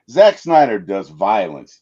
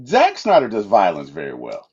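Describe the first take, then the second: First: "Zack Snyder does violence" louder and slower, each word leaned on; emphatic restatement. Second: Said in the usual way. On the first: Shown as a demonstration. Fan stressing the director's strength to his co-host, emphatic. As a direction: land "violence" with weight. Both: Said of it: "let's just put that out there".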